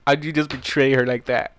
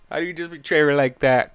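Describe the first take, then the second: First: HOW hit hard and loud; stress on how. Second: BETRAY pushed up and loud; stress on betray. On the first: Reader scolding Spike, HOW stressed loud. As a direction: lean on the word how, then let the rest run. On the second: Reader scolding Spike again, BETRAY stressed. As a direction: punch the word betray. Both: Shown as a demonstration.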